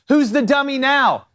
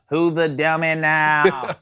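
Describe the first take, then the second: First: It is said in the speaker's natural voice. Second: It is said in a put-on gruff character voice.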